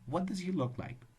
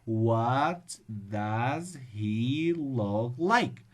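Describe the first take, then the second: First: The sentence is spoken at a normal speed. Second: The sentence is spoken very slowly. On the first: The speaker calls it right. "Just be normal" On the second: The speaker calls it wrong. "Or if you read it slowly"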